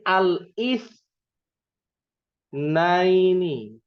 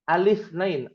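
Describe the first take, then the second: First: A glottal catch separates the article from the word. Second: The article runs straight into the word, no catch. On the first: It means the day after Sunday. "kalau ini al is naini" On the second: It means the number two. "Kalau ini bacanya alif nain"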